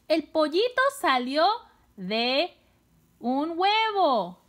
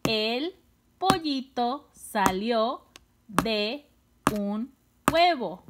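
First: High, lively announcement of a new idea; upbeat teacher delivering the answer; excited whole sentence. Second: Each word apart, from "El" to "huevo", with pauses; separate, measured words, closing down on "huevo". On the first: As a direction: say the sentence in connected phrases, excitedly. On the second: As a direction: count out "El pollito salió de un huevo" one word at a time. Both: Shown as a demonstration. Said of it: "¿Cuántas palabras son?".

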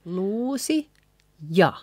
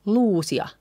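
First: Luusi, pause, ja; separate words. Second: Luusia as one joined word; actual spoken form. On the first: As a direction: lift luusi, then a detached ja. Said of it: "Actually, we say". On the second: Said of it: "we say". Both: Shown as a demonstration.

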